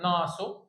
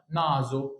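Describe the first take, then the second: First: ناسو with a hissless plain S between the vowels; wrong S sound. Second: نازو slowly, voiced Z between the vowels; correct Z sound. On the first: Teacher warns against the mistake, ناسو with an S. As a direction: say ناسو with S, not Z. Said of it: "غلط، نازو". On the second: Teacher corrects the student, slow نازو with a Z. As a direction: say نازو with a buzzing Z. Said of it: "انطق بصوت الزين". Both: Shown as a demonstration.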